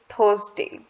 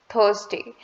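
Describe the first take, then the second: Both takes have the same delivery.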